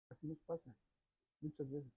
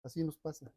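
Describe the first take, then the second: First: Much softer repeat of "Así nos pasa"; quiet echo. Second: Said in the usual way. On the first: Shown as a demonstration. Preacher repeating the lesson to himself, quiet echo. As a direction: let "Así nos pasa" drop to a soft, inward murmur.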